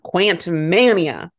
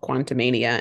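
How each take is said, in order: First: The 'ant' part is emphasized. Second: The 'ant' part is not emphasized. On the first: The speaker calls it right. "Ant-Man is in the title, but they're not highlighting it" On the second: The speaker calls it wrong. "which is called Quantumania"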